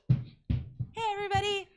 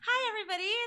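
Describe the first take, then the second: First: It is said with medium energy. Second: It is said with high energy.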